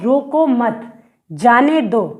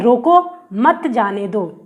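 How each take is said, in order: First: There is a pause right after मत. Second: There is a pause right after रोको.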